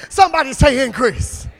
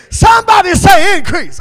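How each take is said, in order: First: Said in the usual way. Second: Higher, louder call to the crowd; shouted call. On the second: Shown as a demonstration. Preacher calling the crowd to shout back. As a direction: demand the response.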